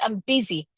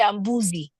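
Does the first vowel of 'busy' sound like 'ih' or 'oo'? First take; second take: ih; oo. First: The first vowel of busy sounds like 'ih'. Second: The first vowel of busy sounds like 'oo'. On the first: The speaker calls it right. "But it is it is busy" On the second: The speaker calls it wrong. "we didn't say I'm boozy because that's a U"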